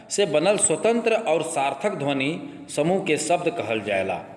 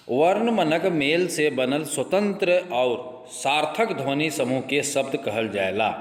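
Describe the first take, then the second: First: Said in the usual way. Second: Slow, even reading of a textbook definition; slow dictation. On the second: Shown as a demonstration. Teacher reading a definition to students, slowly. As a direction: read it out slowly so students can follow. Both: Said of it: "आराम से धीरे धीरे बोल रहे हो".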